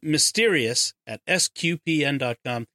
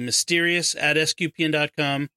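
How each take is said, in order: First: It is said slowly and carefully. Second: It is said at a normal pace.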